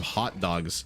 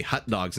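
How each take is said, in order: First: "hot dogs" with an open ah in "hot"; careful, open vowel on "hot"; corrected vowel. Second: Said in the usual way. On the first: Shown as a demonstration. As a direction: say "hot dogs" as haht dogs, not hut dogs. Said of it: "instead of hot dogs". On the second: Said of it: "told that I say hot dogs".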